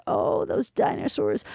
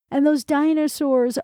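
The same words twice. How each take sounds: First: Slow, lower, whispered repeat of "those dinosaurs"; mock reverent whisper. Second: Said in the usual way. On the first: A narrator's reading. Roscoe teasing the librarian's romantic talk, mock whisper. Roscoe mocking the museum displays.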